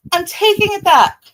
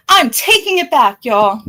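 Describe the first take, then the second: First: Much higher, loud mock retraction; pulling a Shelly, bigger. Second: Pulling a Shelly. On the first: Mimicking Shelly's backpedal, pitched way up and loud. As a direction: go way up, hammed-up reversal. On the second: Pretend. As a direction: take it back like a dramatic flip-flopper. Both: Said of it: "I'm gonna pull a Shelly right now".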